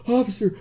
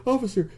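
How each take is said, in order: Both takes have the same delivery.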